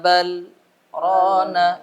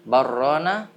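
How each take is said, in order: First: There is a brief stop between the words. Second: The words run together without a stop. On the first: The speaker calls it right. "diam sejenak tanpa menghela nafas" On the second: The speaker calls it wrong. "kalau tidak berhenti"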